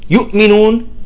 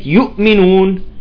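No difference in how they are said.

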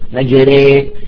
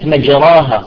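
First: The long vowel after r leans toward 'ee'. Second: The long vowel after r is an open 'aa'.

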